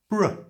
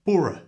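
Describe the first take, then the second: First: Bruh, a quick unstressed ending; the borough ending as a short bruh. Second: Borough said in full, higher and louder; the mistaken full borough, stressed; wrong full borough. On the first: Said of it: "it's pronounced bruh". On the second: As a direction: borough spelled out in full as the error. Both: Shown as a demonstration.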